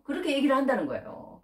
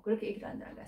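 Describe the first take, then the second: First: Said in the usual way. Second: Unvoiced, soft repeat; whispered echo. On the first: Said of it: "said twice, then softly". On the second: Shown as a demonstration. Preacher whispers his own line back to the congregation. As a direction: breathe the repeat as a hush. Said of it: "repeat whispered".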